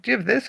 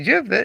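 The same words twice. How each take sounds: First: "do you have this?" with the stress on "you" and a rising end; corrected take. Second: "Do you have thi-" started and cut off mid-word; "thi-" broken off before he corrects himself; first take, abandoned. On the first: Owner modelling a customer's question, you stressed. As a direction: lean on "you", lift "this". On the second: Owner restarting a customer's question, cut short. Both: Shown as a demonstration.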